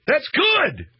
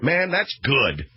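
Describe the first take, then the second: First: Much higher and louder, almost a yelp; delighted outburst. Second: Slow savoring. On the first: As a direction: shout it out with sudden glee. Bursts out delighted. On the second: Savoring his own joke. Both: Real, not acted.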